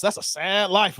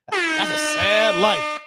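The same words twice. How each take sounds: First: Said in the usual way. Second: Drawn out slowly, mock lament; mock mournful. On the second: Mourning a viewer's Cowboys fandom, drawn-out mock sorrow. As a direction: stretch it like a sad ballad.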